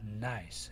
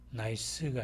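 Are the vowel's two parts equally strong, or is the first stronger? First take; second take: first stronger; equal. First: The first part of the vowel is much stronger. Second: Both parts of the vowel sound equally strong. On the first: The speaker calls it right. "나이스 이런 식으로 발음이 되고요" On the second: The speaker calls it wrong. "나이스가 아니라"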